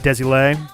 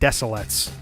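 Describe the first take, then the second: First: The name is said with French sounds. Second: The name has soft s sounds in both places. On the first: "the more French" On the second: "soft s's on both"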